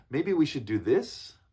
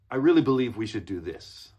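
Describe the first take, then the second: First: "Maybe we should do this" rising at the end like a question; tentative, lift "this" as if asking permission; up-talking. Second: "really" hit loud, falling to a settled "this"; firm statement. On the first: Coach shows what junior employees say, "Maybe we should do this" rising. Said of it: "makes it sound like you're asking". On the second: Coach models executive presence, "really" stressed firmly. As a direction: assert it, punching "really", no question in "this". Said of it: "see the difference?". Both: Shown as a demonstration.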